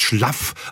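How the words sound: The main vowel is a short A sound. This is how it is said in the Franconian northeast. "also ein A und auch noch kurz gesprochen"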